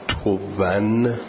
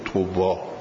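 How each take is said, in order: First: The word ends with an added n sound. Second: The word ends on a vowel, no n. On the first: "با تنوین" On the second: "بی تنوین"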